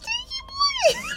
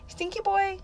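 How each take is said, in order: First: It is said in a very high pitch. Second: It is said in a normal pitch.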